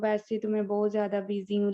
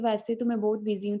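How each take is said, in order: First: It is said slowly and hesitantly. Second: It is said quickly and confidently.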